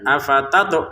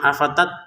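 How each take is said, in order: First: The final t is released with a small bounce. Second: The final t stops flat with no bounce. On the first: The speaker calls it right. "kita pantulkan afatato seperti itu" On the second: The speaker calls it wrong. "mana pantulannya nggak ada"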